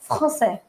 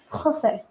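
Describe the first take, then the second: No difference in how they are said.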